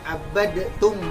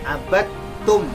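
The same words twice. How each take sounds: First: The d sound is pronounced separately before t. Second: The d sound merges into the t sound. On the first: The speaker calls it wrong. "bukan dibaca abadtum" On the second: The speaker calls it right. "yang benar adalah bacaannya abadtum"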